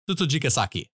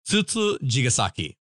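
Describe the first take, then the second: First: The word is said fast. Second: The word is said slowly. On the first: The speaker calls it right. "I have to say it faster" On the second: The speaker calls it wrong. "That sounded awful"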